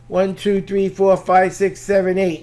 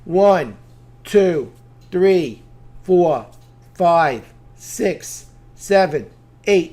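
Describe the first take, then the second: First: The counting is as fast as possible. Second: The counting is at a steady, moderate pace.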